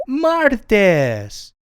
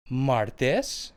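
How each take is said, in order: First: Martes called out high and loud, MAR-tes; Spanish pronunciation demo. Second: Martes said softly, rising at the end; review prompt. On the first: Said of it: "Tuesday is pronounced martes". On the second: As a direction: say martes soft, lifting on tes. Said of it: "let's go over that again". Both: Shown as a demonstration.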